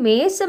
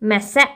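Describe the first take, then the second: First: The e vowel is long. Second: The e vowel is short. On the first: The speaker calls it right. "சொல்லுவோமா" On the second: The speaker calls it wrong. "சொல்ல மாட்டோம்"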